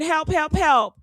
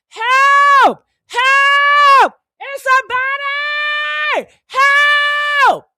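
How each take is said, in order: First: Said in the usual way. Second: High, loud shrieking help; screaming for help. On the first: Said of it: "while I'm screaming". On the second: Pretend. Finding the body and shrieking for anyone to come. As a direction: yell it to the whole building, way up high. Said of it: "I'd be screaming".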